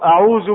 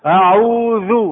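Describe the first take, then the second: First: The consonant is pronounced as a z sound. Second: The consonant is pronounced as a dh sound. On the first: The speaker calls it wrong. "لأنكم تقولون أعوذ بالله" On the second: The speaker calls it right. "أعوذ ذا أذ"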